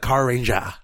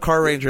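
First: It is said in an imitated Japanese accent. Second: It is said in a plain American English accent. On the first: "it'd be like Car Ranger" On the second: "instead of Car Ranger"

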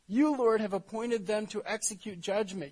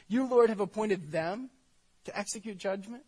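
First: It is read in a calm, even tone. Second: It is said in a disbelieving, questioning tone. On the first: A plain statement addressed to God. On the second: The speaker challenges God's choice in disbelief.

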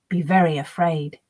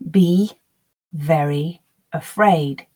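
First: The words are linked with a y sound. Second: Each word is said slowly and separately. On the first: "linking between each sound as I would in faster speech" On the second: "Slowly, word by word"

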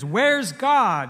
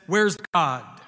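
First: It is asked somewhat louder than before. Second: It is asked at a normal, quiet volume.

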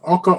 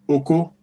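First: Both syllables are on a level mid pitch. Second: The second syllable rises to a high pitch. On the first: It means husband. "Oko means husband" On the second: It is a rude word for penis. "that means penis"

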